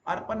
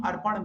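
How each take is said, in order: First: "अर्पण" ending in a plain dental "n"; dental final n. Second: "अर्पण" ending in a curled-tongue "ṇ"; retroflex final ṇ. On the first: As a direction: say "अर्पण" as colloquial "arpan". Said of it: "अर्पण नहीं". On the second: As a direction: say "अर्पण" as formal "arpaṇ". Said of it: "अर्पण मिलेंगे". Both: Shown as a demonstration.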